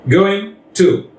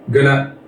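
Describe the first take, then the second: First: Both words are said fully and separately. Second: The words are reduced and run together quickly.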